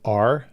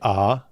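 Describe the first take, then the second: First: The letter is said with a clear r sound. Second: The letter is said without an r sound. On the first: "they really pronounce the R" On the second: "we say R, like A, not A R"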